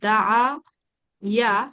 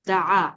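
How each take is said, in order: First: A 'y' glide separates the two vowels. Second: The two vowels merge into one long vowel. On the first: The speaker calls it wrong. "একটা হচ্ছে আমি বলতে পারি দা ইয়া" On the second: The speaker calls it right. "দা বেশি স্মুথ"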